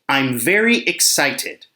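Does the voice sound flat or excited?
flat. It is read in a plain, neutral voice.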